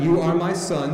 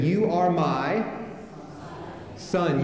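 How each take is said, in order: First: Said in the usual way. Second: Slow, drawn out, then a long pause before son; slow prompt waiting for the congregation; fill-in-the-blank prompt. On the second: Shown as a demonstration. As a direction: leave a gap for the crowd to fill. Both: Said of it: "fill in the blanks as I go".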